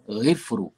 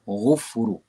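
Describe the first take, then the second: First: The first vowel is i. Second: The first vowel is u. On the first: "jangan baca ghifru" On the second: "jangan baca ghufru"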